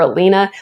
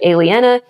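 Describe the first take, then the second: First: The name is said as 'Alina'. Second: The name is said as 'Aliena'. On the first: The speaker calls it wrong. "I was always calling her Alina" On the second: The speaker calls it right. "but it's actually Aliena"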